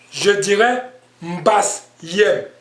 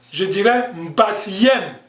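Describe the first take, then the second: First: Mbasiem with the pitch lowered at the end, slow; falling tone on mbasiem. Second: Mbasiem with the pitch raised at the end, slow; rising tone on mbasiem. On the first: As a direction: say mbasiem letting the tone drop, singular. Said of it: "Donc, je baisse l'intonation". (mbasiem avec le ton qui descend) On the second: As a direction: say mbasiem lifting the tone, plural. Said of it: "Donc, je monte". (mbasiem avec le ton qui monte) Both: Shown as a demonstration.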